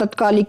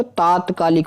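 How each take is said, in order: First: तत्कालिक with short first a; wrong pronunciation. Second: तात्कालिक with long first aa; corrected pronunciation. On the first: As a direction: say तत्कालिक as tat-kaalik. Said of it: "की जाए तो". (तत्कालिक में पहला 'त' छोटा बोलें) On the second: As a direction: stretch taat in तात्कालिक. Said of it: "आ और लगेगा". (तात्कालिक में 'ता' लंबा बोलें) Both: Shown as a demonstration.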